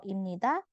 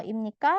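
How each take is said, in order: First: "imnida" with the tone going down; falling tune on "imnida"; falling intonation. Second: "imnika" with the tone going up; rising tune on "imnika"; rising intonation. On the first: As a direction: let "imnida" drop like a statement. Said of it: "kesannya suaranya turun". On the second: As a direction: lift "imnika" like a question. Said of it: "dia harus naik". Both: Shown as a demonstration.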